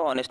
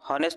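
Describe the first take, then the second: First: The word begins with a vowel sound. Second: The word begins with an h sound. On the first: The speaker calls it right. "स्वराने सुरुवात आहे" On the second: The speaker calls it wrong. "हॉनेस्ट म्हणतो का आपण? नाही"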